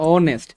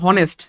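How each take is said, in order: First: The word begins with a vowel, no h. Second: The word begins with an audible h sound. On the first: The speaker calls it right. "এটা উচ্চারণ কিন্তু অনেস্ট" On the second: The speaker calls it wrong. "এটা উচ্চারণ হওয়ার কথা ছিল হনেস্ট"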